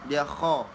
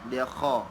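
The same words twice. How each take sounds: Both takes have the same delivery.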